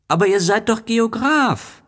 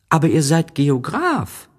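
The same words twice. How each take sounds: First: Put-on very high, insistent child protest; exasperated little prince. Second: Put-on high child voice, puzzled; a boy can't believe it; little prince protesting. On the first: Little prince insists to the geographer, very high and exasperated. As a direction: press the word doch in disbelief. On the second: Little prince objects to the geographer, high and puzzled. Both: A narrator's reading.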